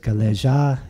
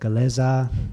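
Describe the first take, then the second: First: It is said with a j sound. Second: It is said with a z sound. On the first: The speaker calls it wrong. "she said galeja instead of galeza" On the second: The speaker calls it right. "the z sound instead of the j sound"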